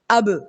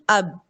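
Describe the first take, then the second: First: The final b bounces with a short echo. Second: The final b stops flat without an echo. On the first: The speaker calls it right. "see this echo ... The sound is going high as if I am putting a fatha there" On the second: The speaker calls it wrong. "most of the people pronounce it ab ... No, that is not right"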